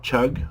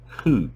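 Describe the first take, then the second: First: The word starts with a ch sound. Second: The word starts with an h sound. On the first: The speaker calls it wrong. "not chug or cug" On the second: The speaker calls it right. "but Hug"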